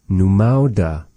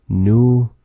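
First: Said in the usual way. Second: Syllable by syllable. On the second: Shown as a demonstration. Teacher teaching a new word to learners, "Numauda" syllable by syllable. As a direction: pause between each syllable of "Numauda".

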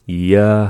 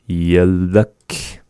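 First: "Yalak" split in two with a clear pause; louder, separate syllables in "Yalak". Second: Said in the usual way. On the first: Shown as a demonstration. Teacher breaking down the word for sleepy, syllable by syllable.

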